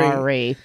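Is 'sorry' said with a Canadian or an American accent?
American. It is said with an American accent.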